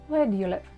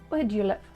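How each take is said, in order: The two takes are said the same way.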